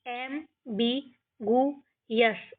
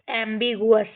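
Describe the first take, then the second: First: एम्बिगुअस split into एम, बि, गु, अस; syllable by syllable. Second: Said in the usual way. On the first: Shown as a demonstration. Teacher shows how we will read, एम्बिगुअस broken into syllables. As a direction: gap after each part of एम्बिगुअस. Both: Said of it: "इस तरीके से".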